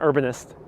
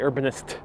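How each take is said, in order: First: The t sound is softened and not crisp. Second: The t sound is pronounced crisply and clearly. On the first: The speaker calls it wrong. "not urbanist" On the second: The speaker calls it right. "You gotta really pronounce those T's on urbanist. You gotta say urbanist"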